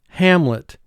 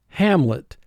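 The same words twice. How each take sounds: Both takes have the same delivery.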